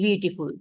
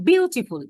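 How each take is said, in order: First: "beautiful" low and flat, no stressed syllable; said flatly. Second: "beautiful" with বিউ hit high, then falling; stress on first syllable. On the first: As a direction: say "beautiful" flatly, without any push on বিউ. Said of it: "আমি যদি এটাকে খুব flatly বলি". ("Beautiful" নিচু গলায়, জোর ছাড়া, সমান সুরে) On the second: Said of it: "ব এর উপরে আমি একটা স্ট্রেস দিচ্ছি". ("বিউটিফুল"-এর বিউ-তে চড়া সুরে জোর) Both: Shown as a demonstration.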